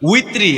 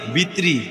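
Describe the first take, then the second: First: The word begins with a w sound. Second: The word begins with a b sound. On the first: The speaker calls it right. "আরবিতে যখন নিয়ত করবেন" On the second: The speaker calls it wrong. "ভিতরে বাইরে এইগুলা নামাজও করলে লাভ হইতো না"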